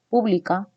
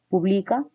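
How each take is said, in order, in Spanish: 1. El acento está en la primera sílaba. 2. El acento está en la segunda sílaba.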